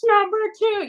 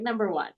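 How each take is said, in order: First: Eager answer. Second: Soft, confident little answer; quiet answer. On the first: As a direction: call it out brightly, sure you're right. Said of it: "And I, and I was like". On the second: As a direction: murmur it, sure of yourself. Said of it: "She's like". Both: Retold or imitated.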